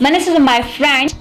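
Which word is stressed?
my. The stress falls on the word my. He is the speaker's friend, not anyone else's. "Not anybody else"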